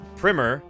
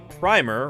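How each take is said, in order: First: The word does not rhyme with climber. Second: The word rhymes with climber. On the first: It names a school book. "pronounced primer, is a school book" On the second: It names a first coat of paint. "rhyming with climber"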